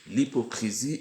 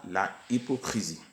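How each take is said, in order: First: The article is elided onto the noun. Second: The article is said in full, unelided. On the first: The speaker calls it right. "et non pas" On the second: The speaker calls it wrong. "non pas"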